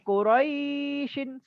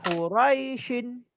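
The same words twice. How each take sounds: First: The vowel before the sh is held long. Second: The vowel before the sh is kept short. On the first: The speaker calls it wrong. "bukan Quraishin, salah" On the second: The speaker calls it right. "Yang betul Quraishin"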